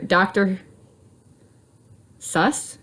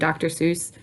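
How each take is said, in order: First: The name's vowel sounds like the one in bus. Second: The name's vowel sounds like the one in goose. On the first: The speaker calls it right. "is how it's supposed to be pronounced, I believe, because it's supposed to rhyme with bus" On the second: The speaker calls it wrong. "So I always say it wrong"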